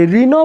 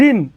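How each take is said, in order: First: "ঋণও" said as ri-no, ending on an open o; added final vowel. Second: "ঋণ" said as rin, closed on the n; closed final consonant. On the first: Teacher showing the form we don't say, "ঋণও" with an open final o. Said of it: "ঋণও বলি না". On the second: Teacher showing the form we do say, "ঋণ" closed as rin. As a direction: end "ঋণ" on n, with no vowel after it. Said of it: "কি বলি?". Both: Shown as a demonstration.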